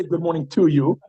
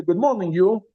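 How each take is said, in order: First: "to" given the weight in the greeting; stress on TO. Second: Said in the usual way. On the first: Shown as a demonstration. Teacher showing class what Zaidi wouldn't say, stress on "to". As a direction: lean on "to" before "you". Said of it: "in Yiddish you don't do that". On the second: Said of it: "He wouldn't say".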